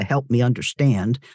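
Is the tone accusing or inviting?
accusing. It is said in a harsh, accusing tone. The listener is being told to justify themselves. The speaker calls it wrong. "not a help me understand, justify yourself"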